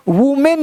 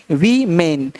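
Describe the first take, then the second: First: "वुमेन" with oo in the first syllable; wrong pronunciation. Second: "वीमेन" with long ee first, falling lower; correct pronunciation. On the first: Teacher shows the misreading of women, "वुमेन" with oo. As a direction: say "वुमेन" like "woo-men". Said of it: "वुमेन नहीं". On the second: Teacher models plural women, "वीमेन" with long ee. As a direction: say "वीमेन" like "vee-men". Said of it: "वीमेन पढ़ना है". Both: Shown as a demonstration.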